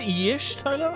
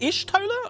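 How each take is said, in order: First: The name begins with a "y" sound. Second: The name begins with an "ish" sound. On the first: "Do I pronounce the Y?" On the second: "I've always just said it as Ishtola"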